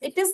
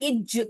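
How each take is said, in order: First: The word ends with a z sound. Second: The word ends with a j sound. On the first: The speaker calls it right. "English में तो ज" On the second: The speaker calls it wrong. "Not इज जहाज"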